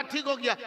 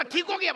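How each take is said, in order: First: Said in the usual way. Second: High-pitched acted question on ठीक हो गया; imitated surprised relative; astonished question. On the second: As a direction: ask it high, in mock disbelief. Relative questions the doctor again.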